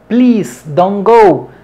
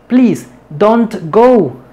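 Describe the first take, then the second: First: The words flow together without a pause. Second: The words are separated with a pause, robotically. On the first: The speaker calls it right. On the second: The speaker calls it wrong.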